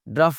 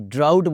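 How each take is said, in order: First: The vowel sounds like the vowel in cup. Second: The vowel sounds like the vowel in out. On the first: The speaker calls it wrong. "ड्रफ नहीं" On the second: The speaker calls it right. "ड्राउट बोलना है इसको जनाब"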